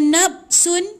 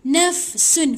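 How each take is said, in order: First: The middle consonant is a b sound. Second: The middle consonant is a breathy f sound. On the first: The speaker calls it wrong. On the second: The speaker calls it right. "fa fa, ada angin, bunyi angin"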